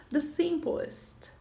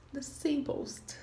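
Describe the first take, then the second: First: The simplest drawn out slowly, each sound clear; teacher spelling out the simplest; slow careful model word. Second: The simplest whispered slowly, barely voiced; soft whispered model of the simplest; whispered repeat. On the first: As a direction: say the simplest slowly for the class to copy. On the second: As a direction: breathe the simplest softly as an echo. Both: Shown as a demonstration. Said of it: "nós temos o simple".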